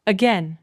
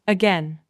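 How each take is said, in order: Both takes have the same delivery.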